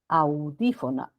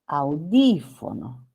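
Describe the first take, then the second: First: The stress is on the first syllable. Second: The stress is on the second syllable. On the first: The speaker calls it wrong. "esta U como que tuviera énfasis" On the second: The speaker calls it right. "la sílaba tónica está después"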